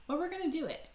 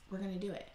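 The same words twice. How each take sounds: First: Pumped-up high promise; rally yourself, bright and high; excited. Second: Quiet. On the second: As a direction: say it to yourself under your breath. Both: Real, not acted.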